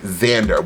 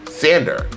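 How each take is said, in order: First: The name begins with a Z sound. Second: The name begins with an S sound. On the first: "Xander with a Z" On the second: "S A N D E R"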